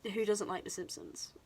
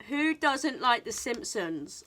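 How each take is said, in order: First: Said in the usual way. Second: Slow, louder "Who doesn't like The Simpsons"; emphatic repeat. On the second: Real, not acted. Vlogger repeats her question to viewers about a favourite show, emphatically. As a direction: stretch out "Who doesn't like The Simpsons", punching each part.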